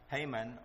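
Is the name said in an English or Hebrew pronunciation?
English. The name is said in an English pronunciation.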